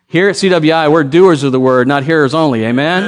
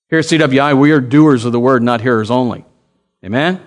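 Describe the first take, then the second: First: Said with more push and volume; preacher demanding a livelier amen; louder call for response. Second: Said in the usual way. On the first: Shown as a demonstration. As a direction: repeat it louder to rouse the crowd. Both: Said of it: "Oh, no, no, come on".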